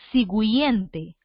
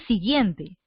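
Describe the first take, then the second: First: The u after the g is pronounced. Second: The u after the g is silent. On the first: The speaker calls it wrong. "¿Tú lees siguiente o tú lees siguiente?" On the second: The speaker calls it right. "tú no pronuncias la U. Tú dices siguiente"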